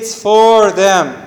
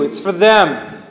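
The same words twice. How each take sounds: First: The word 'for' is said fully with a clear vowel. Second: The word 'for' is reduced to a weak form. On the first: The speaker calls it wrong. "It's rarely that we say it's for them. It sounds even weird" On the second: The speaker calls it right. "for all the rest of the time you use"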